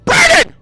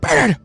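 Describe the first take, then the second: First: The name is shouted loudly. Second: The name is said quietly.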